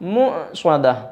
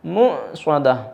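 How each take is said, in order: Both takes have the same delivery.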